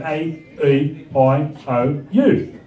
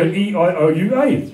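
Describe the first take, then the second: First: A, E, I, O, U in broad Australian; Australian vowels. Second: E, I, O, U, A as shifted New Zealand vowels; Kiwi vowels. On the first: Comic showing how Australians say A, E, I, O, U, Aussie-accented. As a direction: recite A, E, I, O, U with Australian sounds. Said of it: "when we say our vowels, we go". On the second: Comic mimicking Kiwi friends saying E, I, O, U, A, New Zealand vowels. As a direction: recite E, I, O, U, A in a Kiwi accent. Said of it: "our Kiwi friends say it slightly differently". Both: Shown as a demonstration.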